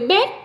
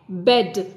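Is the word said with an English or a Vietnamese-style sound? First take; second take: Vietnamese; English. First: It sounds like a Vietnamese-style syllable. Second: It has a short, crisp English sound. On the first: The speaker calls it wrong. "còn bed là các con Việt hóa ra" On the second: The speaker calls it right. "Bed là tiếng Anh"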